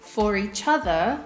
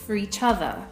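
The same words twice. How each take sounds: First: 'For' is said with its full vowel. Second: 'For' is said with a reduced vowel.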